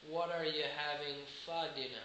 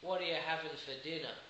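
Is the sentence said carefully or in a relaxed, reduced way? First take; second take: careful; reduced. First: The words are said fully and carefully. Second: The words are reduced and run together. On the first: The speaker calls it wrong. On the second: The speaker calls it right.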